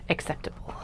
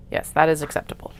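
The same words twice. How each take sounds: First: Whispered echo to herself; whispering. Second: Said in the usual way. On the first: Real, not acted. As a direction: breathe the word out, unvoiced. Whispered repeat of own word.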